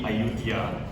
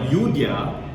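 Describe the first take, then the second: First: The name starts with an open vowel sound. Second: The name starts with a Y sound. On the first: "if you want to pronounce it in the correct way" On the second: "or rather Yudhya"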